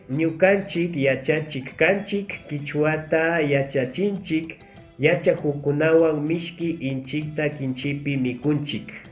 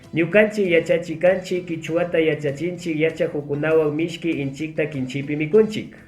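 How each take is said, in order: First: It is read at a slow pace. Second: It is read at a fast pace.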